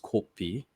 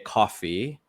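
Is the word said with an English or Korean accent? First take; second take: Korean; English. First: It is said with a p sound, Korean accent. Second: It is said with an f sound, plain English.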